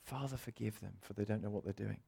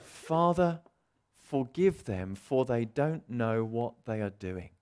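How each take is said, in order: First: Much softer, almost under the breath; soft repeat. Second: Slow, gentle plea; tender plea. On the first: Shown as a demonstration. Preacher repeating the words to the congregation, much softer. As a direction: let it sink in quietly. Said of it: "repeated quietly". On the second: Retold or imitated. Jesus on the cross forgiving, slow and gentle. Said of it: "we hear these words".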